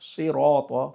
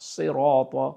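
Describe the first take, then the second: The two takes are said the same way.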